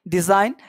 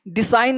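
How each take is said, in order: First: The middle consonant is a z sound. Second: The middle consonant is an s sound. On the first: The speaker calls it right. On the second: The speaker calls it wrong. "डिसाइन नहीं"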